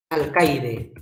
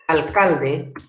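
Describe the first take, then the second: First: "Alcaide" as al-KAI-de, a glide for the l; careful, falling "Alcaide", no l before the d; contrastive articulation. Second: "Alcalde" as al-KAL-de, with the second l sounded; careful "Alcalde", l in the middle syllable; contrastive articulation. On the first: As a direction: say "Alcaide" with the ai diphthong. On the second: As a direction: say "Alcalde" with a clear l before the d. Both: Shown as a demonstration. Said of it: "Parecida escritura, parecida pronunciación".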